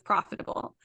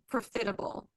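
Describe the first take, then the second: First: Said in the usual way. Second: First "profitable" as pro-FIT-able; mispronounced profitable. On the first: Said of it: "instead of profitable". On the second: Retold or imitated. Imitating Javi, profitable mispronounced with stress on FIT. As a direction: stress the second syllable of "profitable". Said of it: "Javi says".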